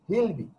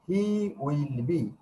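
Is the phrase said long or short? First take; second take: short; long. First: The contracted form is said, shorter. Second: The full form is said, longer.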